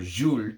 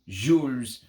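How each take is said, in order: First: The name is said with a French pronunciation. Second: The name is said with an anglicized pronunciation. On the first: The speaker calls it right. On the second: The speaker calls it wrong.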